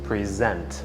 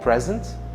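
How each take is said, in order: First: The stress is on the second syllable. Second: The stress is on the first syllable. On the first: It is a verb meaning to give or offer. "هنگامی که تأکید رو روی هجای دوم میگذاریم تلفظش میکنیم present" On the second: It is an adjective meaning current or here. "مجددا با تاکید روی هجای نخست به عنوان یک صفت"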